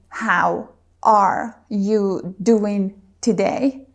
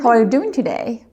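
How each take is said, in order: First: Each word is said separately with small pauses. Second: The words flow together without pauses between them. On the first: The speaker calls it wrong. "We don't say, ... This is just not fluent" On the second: The speaker calls it right. "the whole phrase comes out as one unit"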